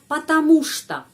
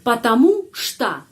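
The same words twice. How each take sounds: First: The two words run together without a break. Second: The two words are split by a pause. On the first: The speaker calls it right. "kita mengucapkan itu sambung" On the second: The speaker calls it wrong. "Tidak usah pisah"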